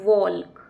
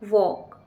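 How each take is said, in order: First: The word is said with an L sound. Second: The word is said without any L sound. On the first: The speaker calls it wrong. "ना कि वॉल्क" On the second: The speaker calls it right. "एल यहाँ पर चुप रहेगा"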